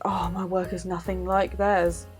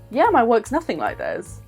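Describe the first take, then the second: First: It sounds discouraged and self-doubting. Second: It sounds confident and positive.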